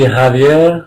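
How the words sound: The name is said with a Spanish pronunciation. "In Spanish, it would be"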